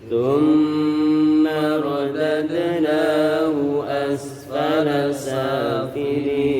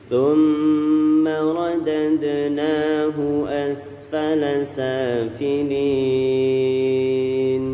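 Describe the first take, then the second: Both takes have the same delivery.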